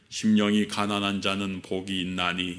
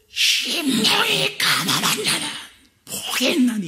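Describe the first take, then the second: First: It is spoken in a low, quiet, solemn voice. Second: It is shouted very loudly with great force. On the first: It sounds dignified, but a large crowd could not hear it. The speaker calls it wrong. "이런 식으로 나지막한 목소리, 뭔가 위험 있는 목소리로" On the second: It is loud enough for a huge crowd to hear. The speaker calls it right. "피를 토하듯이 굉장히 큰 소리로 말을 하셨을 것이다"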